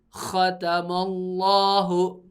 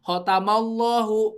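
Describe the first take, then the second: First: The first consonant is harsh and rough. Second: The first consonant is soft and weak. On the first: The speaker calls it right. "Jadi kasar aja. Jadi kayak ada hak-haknya gitu ya" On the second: The speaker calls it wrong. "Jadi khotama gitu ya"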